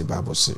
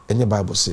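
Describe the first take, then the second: First: Unvoiced whispered echo of Bible se; hushed echo. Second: Said in the usual way. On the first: Shown as a demonstration. Mocking the pastors' refrain with a whispered echo. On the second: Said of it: "Bible se. repeated whispered".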